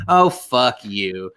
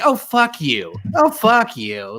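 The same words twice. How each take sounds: First: Drawn-out contemptuous oh, fuck you; mock disgust at a teary pundit; slow disgusted scoff. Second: Pitched-up, exasperated oh, fuck you; mock outrage, voice jumping up; higher disgusted scoff. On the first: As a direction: sneer it slowly at the TV. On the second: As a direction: throw it higher, slower, fed up. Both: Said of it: "I was like".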